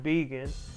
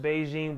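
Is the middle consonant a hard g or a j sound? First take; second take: hard g; j sound. First: The middle consonant is a hard g sound. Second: The middle consonant is a soft j sound. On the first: This is the correct way to say the name. The speaker calls it right. "but it's Beegan" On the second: This is how most people say the name. The speaker calls it wrong. "I know everybody pronounce it Beijing"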